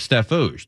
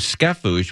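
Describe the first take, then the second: First: The name is said with a T sound. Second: The name is said with a K sound.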